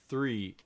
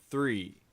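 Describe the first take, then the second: The two takes are said the same way.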